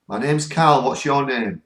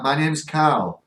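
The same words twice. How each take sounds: First: Louder, higher, sure repeat of the spirit's words; confident louder echo. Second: Drawn out, unsure repeat of a heard name; slow questioning echo. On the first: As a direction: say it out firmly, now you are sure. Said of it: "They come through again". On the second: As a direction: stretch it slowly like checking what you heard. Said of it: "I heard her say". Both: Retold or imitated.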